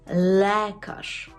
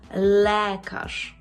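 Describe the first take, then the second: No difference in how they are said.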